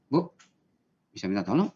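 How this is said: It is said in an unpleasant, unsoothing tone.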